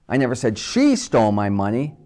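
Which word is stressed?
she. The stress is on the word she.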